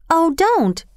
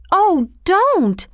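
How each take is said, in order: First: Higher-pitched, urgent plea to stop; urging protest. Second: High-pitched children's plea in a put-on voice; pleading. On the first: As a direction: object on a girl's behalf, pitch raised. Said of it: "she urged the station master". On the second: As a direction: cry out imploringly, pitch jumping well up. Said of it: "all the children pleaded at once". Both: A narrator's reading.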